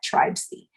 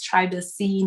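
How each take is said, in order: First: The word sounds like 'tribes-y', two syllables. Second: The word sounds like 'tri-ba-cy', three syllables. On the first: The speaker calls it wrong. "not tribesy" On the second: The speaker calls it right. "the pronunciation is tribacy"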